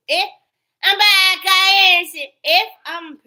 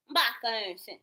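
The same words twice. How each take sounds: First: High, loud mock voice of her; loud mocking imitation. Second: Said in the usual way. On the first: Mocking the woman's claim of innocence, loud high parody. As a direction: parrot her like a taunt.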